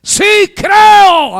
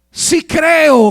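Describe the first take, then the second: First: Very high, very loud drawn-out cry; all-out acted yell; demonstrated full shout. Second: High, loud cry of belief, acted; preacher acting out a shout; retold shout. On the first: Shown as a demonstration. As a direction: belt out the father's belief at the top of the voice. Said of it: "así". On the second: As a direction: call it out as the desperate father. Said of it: "gritó".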